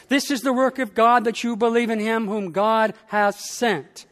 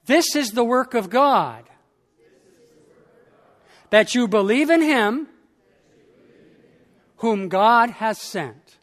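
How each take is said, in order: First: Said in the usual way. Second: Measured call-out for the congregation; phrase by phrase. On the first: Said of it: "Listen again to this sentence". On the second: Shown as a demonstration. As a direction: pause after each phrase so they can echo. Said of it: "You can say it after me phrase by phrase".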